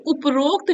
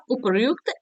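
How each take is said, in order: First: उपरोक्त with "rok", a long o; wrong form. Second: उपयुक्त said "upar-yukt", with r before yu; correct form. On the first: Teacher showing a sandhi error, wrong form with o. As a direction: say उपरोक्त as "up-rokt". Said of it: "ऐसे नहीं लिखा जाता". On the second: Teacher correcting a sandhi error, correct form with ryu. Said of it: "ऐसे लिखा जाता है". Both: Shown as a demonstration.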